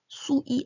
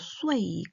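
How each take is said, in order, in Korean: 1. 'u'에서 'e' 없이 바로 'i'로 넘어가요. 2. 마지막 'i' 앞에 'e' 같은 소리가 들려요. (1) "수이 아니고" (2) "아니고 쇠이"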